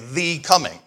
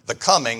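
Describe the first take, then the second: First: The stress falls on the word the. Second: The stress falls on the word coming. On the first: It refers to one singular, standout arrival. "we tend to emphasize that" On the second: It refers to an arrival in general. "instead of saying the coming"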